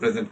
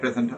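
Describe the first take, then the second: First: The stress is on the second syllable. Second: The stress is on the first syllable. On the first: It is a verb meaning to show something. "আরেকটা হচ্ছে present আপনি কোনো কিছু present করছেন" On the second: It is a noun meaning a gift. "আপনি যদি স্ট্রেসটা শুরুতে দেন ওটা নাউন হিসেবে প্রেজেন্ট"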